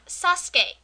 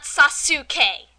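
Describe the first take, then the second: First: "Sasuke" in two beats, SAS-kay; correct Japanese pronunciation. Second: "Sasuke" in three loud beats, sa-SOO-kay; mocked dub mispronunciation. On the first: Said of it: "I've even heard them pronounce Sasuke". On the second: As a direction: sound out the u in "Sasuke", slow and loud. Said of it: "not Sasuke". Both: Shown as a demonstration.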